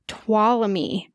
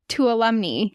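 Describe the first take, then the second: First: The name is said without an N sound. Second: The name is said with an N sound. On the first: The speaker calls it right. "You don't even say the N" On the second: The speaker calls it wrong. "I always said Tuolumne. Because that's how it's spelled"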